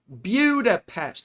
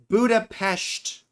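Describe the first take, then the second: First: It is said in a British way. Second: It is said in a plain American way.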